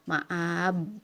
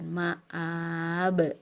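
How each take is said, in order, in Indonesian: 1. Bunyi b di akhir datar, tanpa pantulan. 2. Bunyi b di akhir dipantulkan. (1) "bukan ma'ab ya" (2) "tapi dipantulkan ma'ab"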